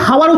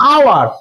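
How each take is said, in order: First: The word starts with an audible h sound. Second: The word starts directly with a vowel sound. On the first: The speaker calls it wrong. "হাওয়ার উচ্চারণ করবি না" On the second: The speaker calls it right. "এইচটা উজ্জ্ব থাকছে মানে উচ্চারণ আমি করছি না"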